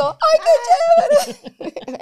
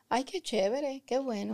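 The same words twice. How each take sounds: First: "Ay, qué chévere" stretched slow, much higher and louder; gushing delight. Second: Flat, lukewarm "Ay, qué chévere", softer; unexcited thanks. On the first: Shown as a demonstration. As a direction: overflow with joy at the gift. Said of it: "es como cuando yo digo". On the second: Retold or imitated. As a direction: say it with no enthusiasm at all. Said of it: "hay personas que dicen".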